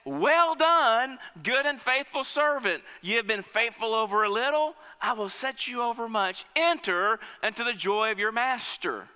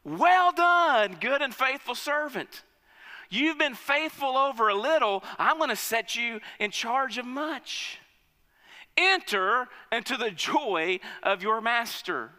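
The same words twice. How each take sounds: First: Raised, ringing praise from the king; master's praise. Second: Master's praise. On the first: King praising the second servant, raised voice. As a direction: commend him like a pleased master. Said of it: "He says". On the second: King commending his faithful servant, booming praise. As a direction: proclaim it like a proud king. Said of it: "And his master says to him". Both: Acted.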